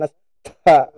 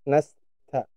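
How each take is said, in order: First: The t is released with a strong burst of breath. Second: The t is released with only slight breath. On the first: The speaker calls it wrong. "itu berlebihannya" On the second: The speaker calls it right. "sedikit saja"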